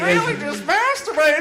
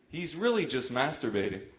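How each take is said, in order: First: It is said in a put-on weird voice. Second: It is said in his normal voice.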